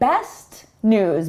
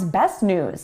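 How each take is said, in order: First: The T before the N is fully released. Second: The T before the N is not released.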